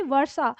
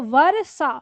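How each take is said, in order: First: वर्षा said as "var-sa", run together; no vowel after र in वर्षा; quick र in वर्षा. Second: वर्षा pulled apart as "va-ra-sa", loud; full र in वर्षा. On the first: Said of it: "तो र जल्दी बोलता है". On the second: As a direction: give र room of its own in वर्षा. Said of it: "अब आप इसे ना वर्षा ऐसे बोलेंगे". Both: Shown as a demonstration.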